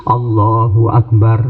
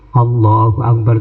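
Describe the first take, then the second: The two takes are said the same way.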